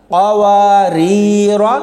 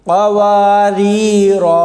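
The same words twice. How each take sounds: First: कवारीरा recited slowly with short final vowel, rising end; non-pausal reading. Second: कवारीरा chanted slowly with long final alif and falling end; pausal reading. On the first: Teacher showing reading without a stop, slow recitation. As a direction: read कवारीरा without lengthening the alif. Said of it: "तो फिर ऐसे पढ़ा जाएगा". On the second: Teacher showing the pausal form, slow recitation. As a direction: stretch the final a of कवारीरा when stopping. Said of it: "तो ऐसे पढ़ेंगे". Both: Shown as a demonstration.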